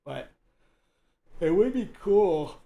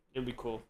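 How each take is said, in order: First: Talking through a yawn; words stretched by a yawn. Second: Said in the usual way. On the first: Real, not acted. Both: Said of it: "Oh my God, I'm yawning".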